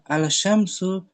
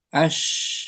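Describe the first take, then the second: First: The article is pronounced with a clear l sound. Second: The l merges into the following sh sound. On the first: The speaker calls it wrong. "Jangan al al syamsu" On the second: The speaker calls it right. "tapi ash"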